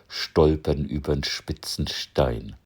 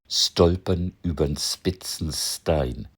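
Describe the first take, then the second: First: It has a Standard German accent, with sht and shp. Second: It has a Northern German accent, with s-t and s-p.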